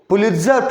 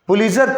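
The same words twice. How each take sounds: First: The t sound is pronounced clearly. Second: The t sound is left out.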